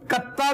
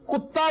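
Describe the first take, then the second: First: The first vowel sounds like 'a' in 'about'. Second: The first vowel sounds like 'u' in 'put'. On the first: "इसे कत्ता भी कर सकते हैं" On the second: "pronounce कुत्ता भी कर सकते हैं आप"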